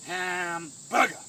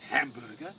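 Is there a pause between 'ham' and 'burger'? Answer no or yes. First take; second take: yes; no. First: It is said slowly with a pause after ham. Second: It is said quickly with no pause inside. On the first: The swing takes its time. The speaker calls it right. "So it's hamburger" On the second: The swing is rushed. The speaker calls it wrong. "not hamburger"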